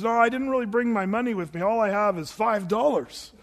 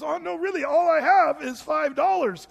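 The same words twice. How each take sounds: First: Said in the usual way. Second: Much higher, mock pleading; pleading Andy. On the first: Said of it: "Andy says". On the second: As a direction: whine that it's all he has. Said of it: "And he says".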